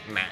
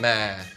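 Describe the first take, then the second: First: It is said with the nặng tone. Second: It is said with a falling tone. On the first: "yo nang" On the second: "Going down"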